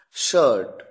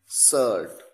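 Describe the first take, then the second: First: शर्ट with a full sh, tongue curled back; शर्ट said correctly with sh. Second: सर्ट with a plain s instead of sh; सर्ट said wrongly with s. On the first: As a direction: say शर्ट properly with sh. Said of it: "देखिए". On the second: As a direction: show the common mistake सर्ट. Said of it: "शर्ट को सर्ट कहते हैं". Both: Shown as a demonstration.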